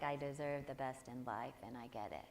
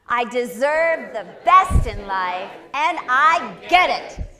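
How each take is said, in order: First: Lower, softer, lifeless mumble of the affirmation; mock bored recital. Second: Much louder, slow, passionate declaration; with feeling. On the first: Teacher imitating a half-hearted audience member, flat mock mumble. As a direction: parody people reciting it without caring. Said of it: "you know when you're standing up here and people do that". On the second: Shown as a demonstration. Teacher showing the class how to say it, slow passionate shout. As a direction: belt it out with full conviction. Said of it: "you're gonna say it with feeling".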